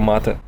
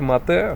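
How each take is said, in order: First: The stress falls on the first syllable. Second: The stress falls on the second syllable. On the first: It names the drink. "а если нет, то мате" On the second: It means someone killed. "если вы э, хотите сказать, что вы убили, тогда говорите мате"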